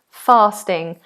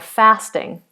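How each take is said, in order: First: It is said in a standard British accent. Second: It is said in an American or northern accent. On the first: "British English is are, far, fasting" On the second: "American English or Northern British English would be"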